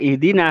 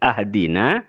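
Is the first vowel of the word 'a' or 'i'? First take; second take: i; a. First: The word begins with an 'i' vowel. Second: The word begins with an 'a' vowel. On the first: It means guide us to the true religion. The speaker calls it right. "hamzah kadito ibaca kasra" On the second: It means send us gifts. The speaker calls it wrong. "bukan ahdina"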